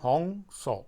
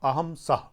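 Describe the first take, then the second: First: It is pronounced the Bengali way, as hong sau. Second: It is pronounced the standard way, as aham sah.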